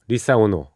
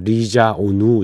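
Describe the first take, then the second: First: The name is said with an s sound. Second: The name is said with a z sound. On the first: This is the usual Korean way of saying the name. "우리말로는 리사오노라고 합니다만" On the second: "브라질 사람들은 아마 리자오누 이렇게 얘기하나 봅니다"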